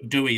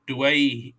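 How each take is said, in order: First: The name is said like "Dewey". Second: The name is said like "Dway-heh". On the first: This is the older, anglicised way the name was said. The speaker calls it wrong. "I've been saying Dewey this whole time" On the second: This is how the player now says his own name. The speaker calls it right. "from what Andrew Voss was teaching me, it's Adam Dwayhe"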